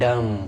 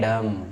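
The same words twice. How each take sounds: No difference in how they are said.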